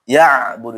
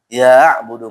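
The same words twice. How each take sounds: First: The first vowel is kept short. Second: The first vowel is drawn out long. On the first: The speaker calls it right. "jadi jangan ya tapi langsung ke ainnya, tekan langsung" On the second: The speaker calls it wrong. "jangan sampai dipanjangkan. Ya'budu enggak boleh"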